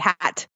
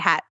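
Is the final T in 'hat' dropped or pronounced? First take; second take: pronounced; dropped. First: The final T sound is clearly pronounced. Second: The final T sound is dropped. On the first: "we don't say hat with the T" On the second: "We say hat"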